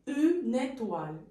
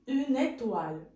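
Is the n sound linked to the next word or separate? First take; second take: linked; linked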